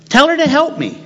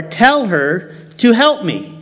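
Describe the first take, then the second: First: High, whining tell her to help me; whiny demand. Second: Said in the usual way. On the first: Acted. Martha whining to Jesus about her sister, high and whiny. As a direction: pitch it way up like a nagging sister. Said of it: "repeated with much higher pitch". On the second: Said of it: "first take, plainer".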